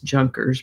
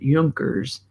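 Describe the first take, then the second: First: The name is said with an American pronunciation. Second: The name is said with a guessed German pronunciation. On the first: "which we would pronounce Junkers" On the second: "maybe the Germans would pronounce it Junkers"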